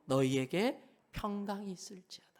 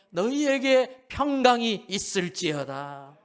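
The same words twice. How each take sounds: First: Said in the usual way. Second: 너희에게 평강이 있을지어다 said louder, slow, each word weighted; solemn proclamation. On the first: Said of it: "repeated with emphasis". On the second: Shown as a demonstration. Preacher proclaiming Jesus' blessing of peace, solemn and slow. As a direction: pronounce 너희에게 평강이 있을지어다 slowly and grandly. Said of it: "repeated take".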